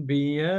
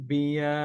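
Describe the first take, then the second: No difference in how they are said.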